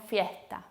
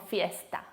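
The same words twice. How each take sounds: First: "fiesta" with the s softened to an English-style h; aspirated S. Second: "fiesta" with a clear hissed s; careful, sibilant s before the t in "fiesta"; fully pronounced S. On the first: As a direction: exhale in place of s in "fiesta". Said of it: "Un poquito más aspirado". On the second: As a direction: sound the s distinctly in "fiesta". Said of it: "no decimos fiesta". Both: Shown as a demonstration.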